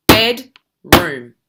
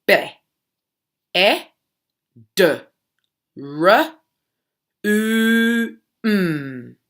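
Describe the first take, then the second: First: "bed, room." split into two loud beats; clapped syllables. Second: Each sound of bedroom said separately. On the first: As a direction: clap out "bed" then "room". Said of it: "we often use a clap". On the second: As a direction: segment it sound by sound. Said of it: "but how many sounds". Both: Shown as a demonstration.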